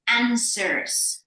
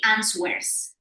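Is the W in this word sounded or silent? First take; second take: silent; sounded. First: The W sound is left out. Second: A W sound is pronounced in it. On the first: The speaker calls it right. "We don't pronounce the W" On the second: The speaker calls it wrong. "we don't say answers"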